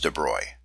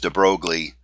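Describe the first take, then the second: First: The name is said in a French-style way. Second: The name is said in an English-style way. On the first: The speaker calls it right. "my understanding is that we should pronounce it as de Broglie" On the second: The speaker calls it wrong. "Many of us don't speak French, and we, we probably pronounce his name as de Broglie"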